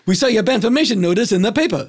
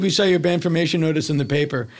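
First: Same flat delivery every take, sped up; identical robotic line reading. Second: Said in the usual way. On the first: Retold or imitated. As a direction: rattle it off exactly the same each time. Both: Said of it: "he read it like this".

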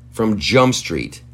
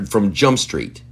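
First: "from Jump Street" slowed, each word weighted; slow emphasis. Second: Said in the usual way. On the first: Shown as a demonstration. Stressing he disagreed from the start, slowed and emphatic.

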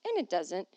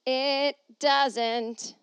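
First: Said in the usual way. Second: High, loud, drawn-out declaration; hammed-up, ringing insistence; exaggerated repeat. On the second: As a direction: belt it out high and stretched. Repeats line louder, stretched.

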